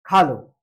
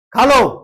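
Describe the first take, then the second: First: Kind invitation. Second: खा लो snapped louder, irritated; annoyed offer. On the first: Host kindly invites a guest to eat, low. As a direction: offer खा लो gently to a guest. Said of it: "अब हम किसी को खाना बोले". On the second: Host angrily tells a guest to eat, louder. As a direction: push खा लो at the guest grudgingly. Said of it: "इसको गुस्सा आ रहा है". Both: Shown as a demonstration.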